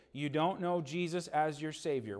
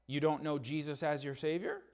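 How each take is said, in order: First: Falling statement, weight on "don't"; firm statement. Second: Rising question tune on "Savior"; unsure question. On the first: Pastor repeating the boy's answer as a firm statement. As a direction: confirm it flatly, stress "don't". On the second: Boy answering the pastor, unsure rising question. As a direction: ask it, lifting "Savior" at the end. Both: Acted.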